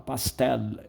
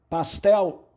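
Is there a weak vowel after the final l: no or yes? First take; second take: yes; no. First: A very weak e follows the final l. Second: The word ends on the l sound.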